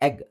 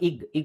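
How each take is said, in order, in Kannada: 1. ಪದ 'e' ಸ್ವರದಿಂದ ಶುರುವಾಗುತ್ತದೆ. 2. ಪದ 'i' ಸ್ವರದಿಂದ ಶುರುವಾಗುತ್ತದೆ. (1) "ಎ ಎ ಎಗ್" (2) "ಬಟ್ ನಾವು ಇಗ್ ಇಗ್ ಅಂತ ಹೇಳ್ತೀವಾ? ಇಲ್ಲ"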